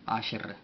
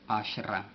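First: The word ends with a bare R sound. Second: The word ends with a vowel after the R. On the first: "también se puede finalizar con una R, la cual no lleva acompañada vocal" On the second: "aquí tenemos marcado Asherah"

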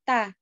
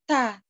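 First: The consonant is thin with little air. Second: The consonant has a strong puff of air. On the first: The speaker calls it right. "tipis aja" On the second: The speaker calls it wrong. "Gak boleh ta"

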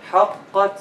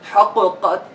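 First: The qaf merges into the next letter without bounce. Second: The qaf is pronounced separately with a bounce. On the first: The speaker calls it right. "once we make إدغام for the قلقلة letter into another letter, the قلقلة is gone" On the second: The speaker calls it wrong. "So we don't say حققت. No"

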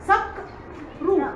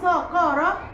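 First: The first syllable ends in a held consonant. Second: The first syllable ends in a vowel. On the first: The speaker calls it right. "لازم اقول سقرو. طب ليه الصاد مسكت القاف؟" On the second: The speaker calls it wrong. "ينفع اقول سقاره؟ ... غلط"

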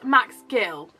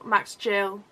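First: The surname starts with a hard G sound. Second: The surname starts with a J sound. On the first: "That sounds wrong" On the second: "Max Jack and Jill"

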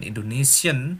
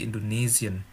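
First: The middle consonant is a hissing s sound. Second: The middle consonant is a buzzing z sound. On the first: The speaker calls it wrong. "Bukan Indonesian" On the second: The speaker calls it right. "S dalam bahasa Jerman itu selalu hampir pasti di, diucapkan Z"

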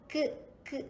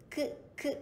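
The two takes are said the same way.

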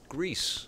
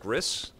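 First: It is said like the country Greece. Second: It is said with a short vowel, like 'Gris'. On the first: This is how the name should be said. The speaker calls it right. "The game is pronounced Greece" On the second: This is how the speaker used to say it. The speaker calls it wrong. "I was pronouncing it Gris"

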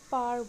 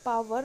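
First: The word is said with one syllable. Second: The word is said with two syllables. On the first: The speaker calls it right. "इसका हम पार बोलेंगे" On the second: The speaker calls it wrong. "इसमें हमको पावर नहीं बोलना"

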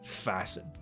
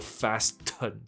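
First: The t sound is silent in the middle. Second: The t sound is pronounced in the middle. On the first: The speaker calls it right. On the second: The speaker calls it wrong.

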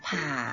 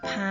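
First: The syllable has a low tone. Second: The syllable has a high tone. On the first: "แล้วก็มาผ่า" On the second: "เสียงตรีต้องเป็นพา"

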